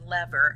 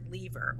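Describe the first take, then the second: First: The word is said the American way. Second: The word is said in a non-American way.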